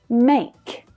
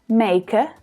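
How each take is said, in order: First: The word ends with a k consonant sound. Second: The word ends with an added vowel sound. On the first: The speaker calls it right. "It ends in a consonant sound, the k sound" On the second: The speaker calls it wrong. "We don't say maker"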